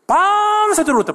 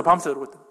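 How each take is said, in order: First: 밤새도록 stretched high, then falling; stress on 밤새도록. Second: Said in the usual way. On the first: Real, not acted. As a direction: draw out the first syllable of 밤새도록, pitched very high. Preacher dramatizes the all-night weeping.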